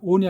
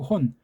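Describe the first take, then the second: First: The word begins directly with the vowel. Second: The word begins with an h sound. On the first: The speaker calls it wrong. "온이 아니고" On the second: The speaker calls it right. "모자를 거꾸로 썼으니까 ... 혼"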